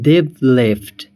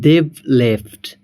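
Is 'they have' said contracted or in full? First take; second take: contracted; contracted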